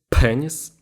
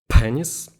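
Both takes have the same delivery.

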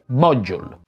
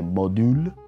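First: The word is said with an English pronunciation. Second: The word is said with an Italian-style pronunciation. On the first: The speaker calls it right. "si dice module. Fatemi flexare il mio inglese" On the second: The speaker calls it wrong. "non si dice module"

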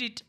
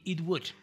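First: The two words are squeezed into one short syllable. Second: Both words are said fully and separately. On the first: The speaker calls it wrong. "sonaría algo así como it, it ... se escucha muy raro" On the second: The speaker calls it right. "entonces lo dejamos así, it would, de preferencia"

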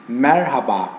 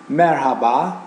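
The two takes are said the same way.

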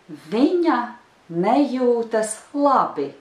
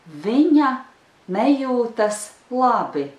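The two takes are said the same way.

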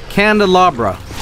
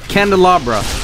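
No difference in how they are said.

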